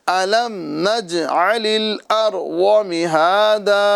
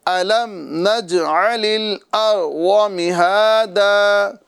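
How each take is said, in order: No difference in how they are said.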